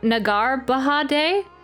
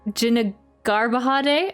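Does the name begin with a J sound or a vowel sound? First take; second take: vowel sound; J sound. First: The name starts without any J sound. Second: The name starts with a clear J sound. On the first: "the J is silent" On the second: "if the J wasn't silent"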